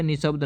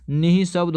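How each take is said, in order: First: निशब्द run straight on, no breath after नि; wrong form shown. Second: निःशब्द with a clear visarga breath, नि-ह-शब्द; correct spelling said clearly. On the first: Teacher to exam students, निशब्द said without the breath. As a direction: say निशब्द without the visarga, as the mistake. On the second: Teacher to exam students, निःशब्द said with the breath after नि. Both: Shown as a demonstration. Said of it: "निशब्द नहीं होता".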